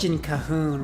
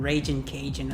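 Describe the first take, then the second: First: The second word is said as 'ca-hoon'. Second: The second word is said as 'ca-jun'. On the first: The speaker calls it wrong. "he said Raging Cahoon rather than Raging Cajun" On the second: The speaker calls it right. "Cajun, not Cahoon"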